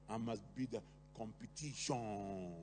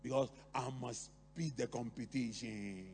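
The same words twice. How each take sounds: First: Put-on lightly done Patois accent, slow and low. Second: Said in the usual way. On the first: Competitive parent to child, in a Patois accent. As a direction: say it in Patois, drawn out. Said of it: "they will even say it like in, in Patois".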